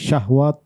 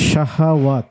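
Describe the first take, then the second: First: The h sound is closed with no vowel. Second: The h sound is followed by a vowel. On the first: The speaker calls it wrong. "এমনটি শুনেছি, এমনটি কাম্য ছিল না" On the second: The speaker calls it right. "যেখানে হায়ে হরকত আছে"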